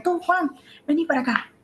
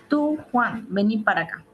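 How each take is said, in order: First: Mamá que llama con rabia, aguda; mamá enojada. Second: Llamado enfático. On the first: Retold or imitated. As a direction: imita a una madre enfadada llamando al hijo. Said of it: "puede ser su mamá que le está diciendo". (mamá llamando con rabia) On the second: Shown as a demonstration. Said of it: "Por ejemplo".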